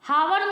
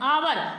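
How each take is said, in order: First: The word begins with an h sound. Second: The word begins with a vowel sound. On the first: The speaker calls it wrong. "हावर नहीं पढ़ते हैं हम" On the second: The speaker calls it right. "आवर पढ़ते हैं"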